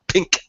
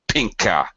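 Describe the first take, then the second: First: The final K is cut off without release. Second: The final K is released with a slight vowel.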